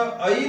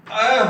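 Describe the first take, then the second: First: ऐ as a two-part a-ee; Odia ऐ, wrong. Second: अ said as one long open ae, louder; Hindi vowel. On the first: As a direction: glide ऐ up into ee. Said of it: "नहीं होकर ये". (ऐ को अइ, उड़िया ढंग से) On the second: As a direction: hold अ as a broad ae, no ee glide. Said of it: "अ हो जाता है". (अ को लंबा, खुला 'ऍ' जैसा बोलें) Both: Shown as a demonstration.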